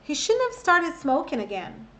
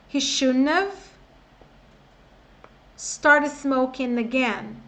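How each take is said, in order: First: The sentence is said at normal speed. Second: The sentence is said slowly. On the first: "Agora tudo" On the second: "Vamos devagar"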